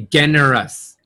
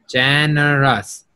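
First: Generous with a hard G as in "get"; mistaken hard G. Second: Generous with a J sound at the start; soft G. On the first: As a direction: begin generous like "gen" in a hard G. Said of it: "not a G sound". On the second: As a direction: begin Generous like "jen". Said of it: "Like a J sound". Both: Shown as a demonstration.

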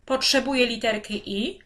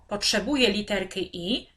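Both takes have the same delivery.

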